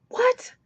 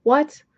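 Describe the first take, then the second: First: High stunned whisper; whispered disbelief. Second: Loud rising disbelief, a genuine shock; incredulous what. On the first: Reviewer repeats her shock at the book, high whisper. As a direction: breathe it out, much higher, stunned. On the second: Reviewer reacts to a plot twist, loud disbelief. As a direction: blurt it out, louder, rising in disbelief. Reacting to sex after grief. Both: Real, not acted.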